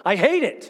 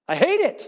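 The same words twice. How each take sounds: First: Said in the usual way. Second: "I hate it" repeated, pitched higher with force; emphatic repeat. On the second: Real, not acted. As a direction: lift and press the repeat of "I hate it".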